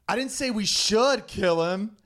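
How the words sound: The stress is on the word 'should'.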